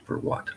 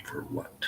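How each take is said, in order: First: Said in the usual way. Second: "For what?" breathed out as a whisper with no voice. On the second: Acted. David quietly asks Grace, in a whisper. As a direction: whisper the line, voiceless and close. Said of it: "plain retake".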